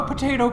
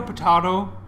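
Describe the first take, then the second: First: "potato" said po-TAY-to. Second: "potato" said po-TAH-to. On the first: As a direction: say "potato" with a long A in the middle. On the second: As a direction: say "potato" with a broad AH in the middle. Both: Shown as a demonstration. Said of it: "potato, potato".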